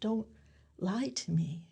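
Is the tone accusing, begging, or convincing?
begging. It sounds like begging someone.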